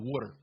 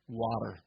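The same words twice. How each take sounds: First: It is said in a Philadelphia accent. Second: It is said in a standard accent.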